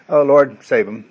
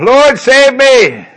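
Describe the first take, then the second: First: It is said calmly, without much intensity. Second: It is cried out with desperate intensity.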